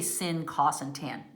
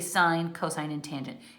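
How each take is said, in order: First: The names are said as short clipped syllables. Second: The names are said as full words. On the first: The speaker calls it wrong. "We don't say sin, cos, and tan. No, no" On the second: The speaker calls it right. "We say sine, cosine, and tangent. You say the full word"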